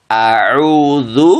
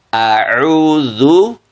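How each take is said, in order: No difference in how they are said.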